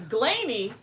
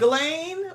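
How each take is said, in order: First: GLANEY said in two syllables, questioning; GLANEY as a puzzled check on the name; name tried out. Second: GLANE as one syllable, high and questioning; alternative pronunciation. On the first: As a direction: try GLANEY with an "-ee" ending. Trying out how name is said. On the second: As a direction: try GLANE without the "-ee" ending. Alternative guess at the name. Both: Shown as a demonstration.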